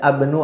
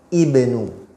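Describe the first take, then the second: First: The word begins with an a vowel. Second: The word begins with an i vowel. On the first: The speaker calls it wrong. "Tidak boleh dibaca abnu" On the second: The speaker calls it right. "pasti dibaca ibnu"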